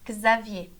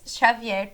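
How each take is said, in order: First: The X sounds like a K Z. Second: The X has the Portuguese sound. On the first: "em francês, se fala Xavier" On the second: "No português, Xavier, por exemplo, tem esse som de X"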